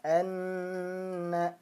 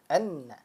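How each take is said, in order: First: Anna with the nn hummed for two beats; held nn. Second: Anna with a quick pressed nn, no hold. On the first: Teacher contrasting the held version. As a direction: hold the nasal in Anna long. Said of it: "kalau ditahan jadinya seperti ini". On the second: Teacher contrasting the pressed version. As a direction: clip the nn short. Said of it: "nabrohnya ditekan saja". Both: Shown as a demonstration.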